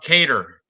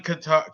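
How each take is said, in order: First: The name sounds like the word 'cater'. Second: The name sounds like the country Qatar. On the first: The speaker calls it right. "I guess it's pronounced Cater" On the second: The speaker calls it wrong. "It's not Qatar, even though it's spelt that way"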